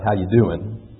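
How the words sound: It is said in a Southern accent.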